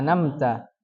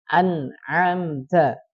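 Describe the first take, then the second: First: The word begins with an n sound. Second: The word begins with an a sound. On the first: The speaker calls it wrong. "Menghilangkan dua huruf, mengganti harokat" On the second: The speaker calls it right. "Jadi harus jelas"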